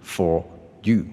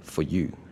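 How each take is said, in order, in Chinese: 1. 这两个词说的时候中间有停顿。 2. 这两个词连着说，中间没有停顿。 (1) "而不是for you" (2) "其实我当时是念成for you"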